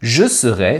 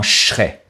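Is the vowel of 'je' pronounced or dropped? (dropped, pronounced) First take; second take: pronounced; dropped. First: Both words are said fully with the vowel in je. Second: The two words merge with a lengthened ch sound. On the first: "« Je serai » s'est transformé en" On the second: "à cause de la disparition du son « e » dans le mot « je »"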